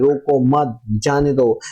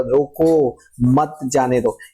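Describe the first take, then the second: First: "रोको मत" run together, then "जाने दो"; group "रोको मत" as one unit, break before "जाने दो"; misread phrasing. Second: Stretched "रोको", break, then "मत जाने दो"; intended phrasing. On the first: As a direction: pause after "मत", not after "रोको". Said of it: "मैं रोको मत जाने दो नहीं बोल रहा था". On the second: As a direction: hold "रोको" long and pause before "मत". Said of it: "मैं बोल रहा था". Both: Shown as a demonstration.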